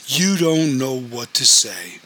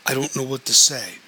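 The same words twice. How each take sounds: First: Slow, scornful echo with weight on YOU. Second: Said in the usual way. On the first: A narrator's reading. Betrayed wife confronts her cousin, slow scornful echo. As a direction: throw it back slowly, leaning on YOU. Cousin throws the apology back.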